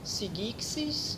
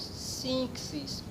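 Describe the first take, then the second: First: The gamma is pronounced as a hard g. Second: The gamma is pronounced as an n sound. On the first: The speaker calls it wrong. "não lemos sigixis" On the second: The speaker calls it right. "mas nós lemos sinxis"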